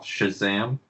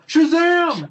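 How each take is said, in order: First: The word is said at normal speaking volume. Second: The word is shouted loudly. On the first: "Am I saying that right?" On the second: "I scream it"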